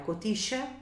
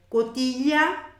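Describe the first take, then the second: First: The middle consonant is a 'sh' sound. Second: The middle consonant is a palatal 'ly' sound. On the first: This is how it is said around the Río de la Plata. "como a gente usa mais no Rio da Prata" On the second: This is how it is said in Spain and other countries. "uma pronúncia ibérica e de outros países"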